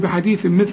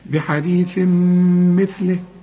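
First: The n is said clearly without nasal hold. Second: The n merges into m with nasal hold. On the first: The speaker calls it wrong. "لا مش تقول لي بحديث مثله" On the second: The speaker calls it right. "شوف الغنة"

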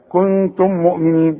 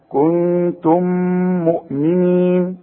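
First: The two m sounds are separate, without nasal hold. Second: The m sounds merge with a held nasal sound. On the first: The speaker calls it wrong. "بدون ادغام وبدون غنة" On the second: The speaker calls it right. "لازم نغن بمقدار حركتين"

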